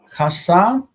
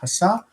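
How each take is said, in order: First: The stress is on the first syllable. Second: The stress is on the last syllable. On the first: It is the past tense form. "almost like this one. The, the stress is different" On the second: It is the present participle form. "Stress is on end of word"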